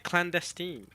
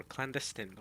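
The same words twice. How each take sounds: First: Clandestine ending in "-steen"; one variant. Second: Clandestine ending in a short "-stin"; second variant. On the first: Streamer questioning clandestine with "-steen". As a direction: say clandestine as clan-des-TEEN. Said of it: "why is it clandestine or". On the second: Streamer trying clandestine with short "-stin". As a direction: say clandestine as clan-DES-tin. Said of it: "or clandestine or whatever". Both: Shown as a demonstration.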